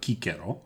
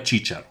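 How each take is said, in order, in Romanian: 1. Numele se pronunță ca în latina originală. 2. Numele se pronunță cum e obișnuit în română. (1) "așa cum se pronunță" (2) "așa cum îl înțelege tot românul"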